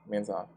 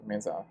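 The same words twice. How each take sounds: Both takes have the same delivery.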